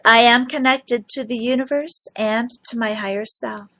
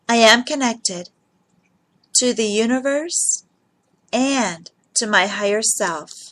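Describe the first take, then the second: First: It is said at a normal speed. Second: It is said slowly and deliberately.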